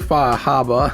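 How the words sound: It is said in a Boston accent.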